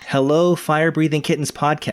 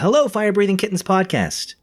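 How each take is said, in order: First: The greeting is read flat and plain. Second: The greeting is read with excited exclamation.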